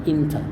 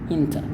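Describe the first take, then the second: Both takes have the same delivery.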